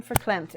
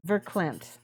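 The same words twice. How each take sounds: First: Verklemmt said with an initial F sound; F at the start. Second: Verklemmt said with an initial V sound; V at the start. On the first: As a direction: begin verklemmt like "fer", as in German. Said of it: "pronounce it with an F". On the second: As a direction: begin verklemmt like "ver", as it is spelled. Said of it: "it starts with a V". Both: Shown as a demonstration.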